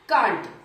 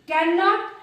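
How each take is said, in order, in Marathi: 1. हे आकुंचित रूपात म्हटले जाते, एका अक्षरात. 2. हे पूर्ण रूपात म्हटले जाते, दोन अक्षरांत. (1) "आपण इथे कांट सुद्धा वापरू शकतो" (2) "कॅन नॉट तर वापरू शकतो"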